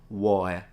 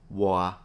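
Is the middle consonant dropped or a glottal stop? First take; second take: dropped; dropped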